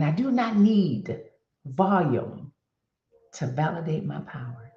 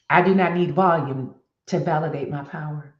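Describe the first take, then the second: First: Measured and weighty, with pauses before VOLUME and "to validate"; deliberate repeated affirmation. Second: Said in the usual way. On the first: Real, not acted. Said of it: "Let me say that again". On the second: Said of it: "My next affirmation".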